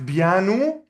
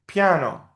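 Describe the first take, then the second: First: "piano" as written, "bianu", b for p; "piano" with a b start and oo ending; spelling pronunciation. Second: Said in the usual way. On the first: Shown as a demonstration. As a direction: say "piano" slowly as "bee-ah-noo", rising. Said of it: "We write piano". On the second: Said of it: "we read piano".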